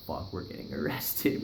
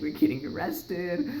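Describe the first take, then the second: First: Said in the usual way. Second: Higher, slow giggly repeat; half laugh the panic out; amused mock dread, pitched up. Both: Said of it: "We're like".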